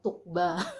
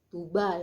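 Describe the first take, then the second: First: The middle g is said as a hard sound. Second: The middle g is silent, barely heard. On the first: The speaker calls it wrong. "bukan Tukba" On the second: The speaker calls it right. "Tuba ya"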